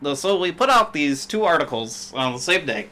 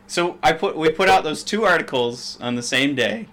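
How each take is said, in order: First: It is said in a nasal, put-on nerd voice. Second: It is said in an ordinary speaking voice.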